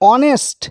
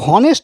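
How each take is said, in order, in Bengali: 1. শব্দটি স্বরধ্বনি দিয়ে শুরু হয়, h নেই। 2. শব্দটি স্পষ্ট h ধ্বনি দিয়ে শুরু হয়। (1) "এইচটা উচ্চারণ করছে না, অ দিয়ে শুরু করছি" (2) "হনেস্ট বলছে না"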